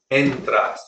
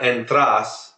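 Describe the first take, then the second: First: "entras" stressed on the first syllable, EN-tras; correct stress. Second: "entras" stressed on the end, en-TRAS, as the mistake; wrong stress. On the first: Teacher modelling the right stress for a student, EN-tras. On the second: Teacher imitating a student's wrong stress, en-TRAS. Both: Shown as a demonstration. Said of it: "You're putting the stress at the end there".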